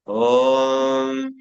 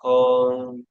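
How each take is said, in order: First: The final m hums long with strong vibration. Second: Said plainly, with a short final m. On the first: "deep breathing करने के बाद ... पीछे म का vibration ज्यादा सुनाई" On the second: "अगर आप ओम बोलते हैं नॉर्मली ... बस ऐसा बोलते हैं"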